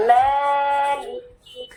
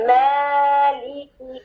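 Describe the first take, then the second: First: مالکی drawn out slowly with a clear Arabic lam and kaf; Arabic pronunciation. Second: مالکی sung slowly in recitation tune; chanted recitation. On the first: Teacher modelling مالکی for the class. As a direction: stretch مالکی slowly, each letter clear. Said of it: "کیسے پڑھنا ہے؟". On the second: Teacher chanting مالکی the right way. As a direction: chant مالکی slowly, each letter clear from its origin. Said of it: "یہ عربی لہجہ نہیں ہے". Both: Shown as a demonstration.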